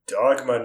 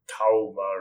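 First: The word is said with an English pronunciation. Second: The word is said with a Danish pronunciation. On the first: "is what you would say in English" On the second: "they say like Tauma or something because Danish pronunciation is very strange"

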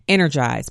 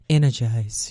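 First: It is said in a plain American accent. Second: It is said in a British accent.

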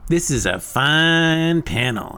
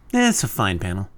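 First: It sounds like genuine, positive praise. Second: It sounds dismissive and only mildly approving.

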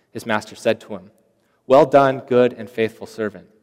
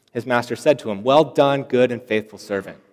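Both takes have the same delivery.

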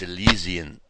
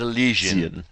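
First: It does not sound like lesion. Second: It sounds like the word lesion. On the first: The speaker calls it right. "It's Elysian" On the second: The speaker calls it wrong. "it's not Elysian. Elysian is something bad on your skin"

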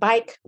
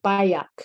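First: It is said as one plain syllable. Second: An extra schwa splits it into two syllables. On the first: The speaker calls it right. "they want to say bike" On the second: The speaker calls it wrong. "they might go bayak"

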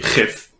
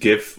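First: The word starts with a Dutch throaty G sound. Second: The word starts with an ordinary English G sound.

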